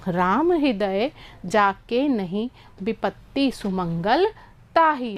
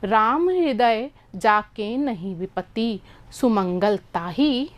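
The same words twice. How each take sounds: First: There is a pause after नहीं. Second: There is a pause after जाके.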